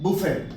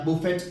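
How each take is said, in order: First: The word ends on a vowel, no T. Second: The word ends with a clear T sound. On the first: The speaker calls it right. "इसको सही तरीके से क्या उच्चारित करते हैं, बोलते हैं बुफे" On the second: The speaker calls it wrong. "अगर आप इसको स्पेलिंग सहित पढ़ेंगे तो बफेट पढ़ सकते हैं या बुफेट पढ़ सकते हैं"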